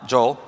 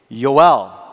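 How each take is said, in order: First: The name begins with a J sound. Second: The name begins with a Y sound.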